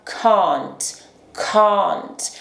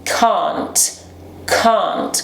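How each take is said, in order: First: Can't with a short front A, American style; can't, flat American a. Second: Can't with a long open back ah, British style; can't, broad British ah. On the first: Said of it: "pronunciado lá na frente da nossa boca". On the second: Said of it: "O som de A em inglês britânico é pronunciado lá no fundo". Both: Shown as a demonstration.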